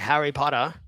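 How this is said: It is said in an Australian accent. "an Australian guy would say"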